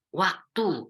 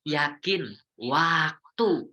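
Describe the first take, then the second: First: Said in the usual way. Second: Yakin waktu, each syllable stretched very slowly; drawn-out emphasis. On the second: Real, not acted. Preacher to the congregation, a slow, drawn-out emphasis. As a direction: lean hard on "yakin waktu", drawing it out. Preacher stressing a key point.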